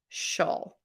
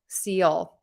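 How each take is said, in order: First: The ending is said as one syllable. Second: The ending is said as two syllables. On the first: The speaker calls it right. "only one syllable, one beat" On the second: The speaker calls it wrong. "the most common mistake is people will pronounce this seal"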